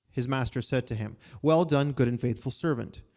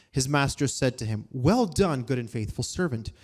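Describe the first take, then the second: The two takes are said the same way.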